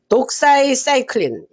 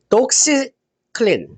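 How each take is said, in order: First: It is said as longer dok-sai-sai-klin. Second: It is said as short dok-si-klin. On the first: The speaker calls it right. "이렇게 발음하면 되겠네요" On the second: The speaker calls it wrong. "음 아니다"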